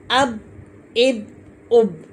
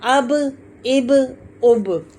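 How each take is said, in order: First: "अब, इब, उब" cut off on a closed b; "अब, इब, उब" with no echo after the b; wrong way, no bounce. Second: "अब, इब, उब" with the b bouncing back; echoing final b on "अब, इब, उब"; qalqalah bounce. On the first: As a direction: stop "अब, इब, उब" dead at the lips. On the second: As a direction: release each b of "अब, इब, उब" as a short "buh". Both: Shown as a demonstration. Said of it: "ऐसे नहीं करना".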